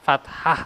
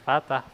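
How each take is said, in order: First: A breathy h sound follows the t. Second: The t is followed directly by the vowel. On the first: The speaker calls it right. "fathah gitunya gitu" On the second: The speaker calls it wrong. "Sanes fatah"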